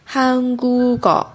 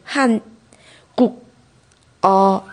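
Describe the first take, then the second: First: The k sound moves onto the last syllable. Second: Each syllable is said separately, the final k kept. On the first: "咯的收音会跑到后边去，变成跟哦组合成一个高的发音" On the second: "你如果一个一个字读的话"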